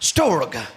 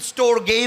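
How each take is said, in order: First: The word ends on a bare consonant sound. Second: The word ends with an added vowel sound. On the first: The speaker calls it right. "लेकिन ये स्टोर्ग है" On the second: The speaker calls it wrong. "कुछ लोग इसको इसकी प्रोनाउंसिएशन स्टोरगे भी करते हैं"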